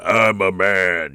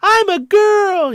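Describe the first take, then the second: First: Low, slow, hammed-up he-man; silly mock-macho voice, lowered and stretched; over-the-top male voice. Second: Put-on very high, loud, drawn-out falsetto girl; silly high mock-girl voice, stretched out; over-the-top female voice. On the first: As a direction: go ridiculously deep and drawn out as a manly man. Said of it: "do that over the top". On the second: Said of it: "a male doing a female voice". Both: Shown as a demonstration.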